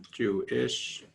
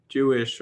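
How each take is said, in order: First: "Jewish" drawn apart as Jew-ISH, rising at the end; split Jew-ish. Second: Said in the usual way. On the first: Real, not acted. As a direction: separate the "ish" in "Jewish", lifting it. Wordplay contrasting Jewish with Jew-ish.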